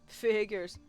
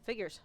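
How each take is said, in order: First: It is said in a put-on Chad voice. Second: It is said in a normal reading voice.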